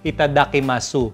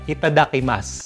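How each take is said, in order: First: The final u sound is clearly pronounced. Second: The final u sound is silent. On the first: This is how some people read it. The speaker calls it wrong. "Pero yung iba basa" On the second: This is the real pronunciation. The speaker calls it right. "Pero ang talagang pronunciation is uh"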